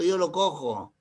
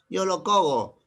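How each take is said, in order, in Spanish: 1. La consonante del medio es un sonido j gutural. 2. La consonante del medio es un sonido g dura. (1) "¿Qué pasaría si lo cambio por J? Mantiene su sonido" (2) "Y si mantengo la G, lo descuadra"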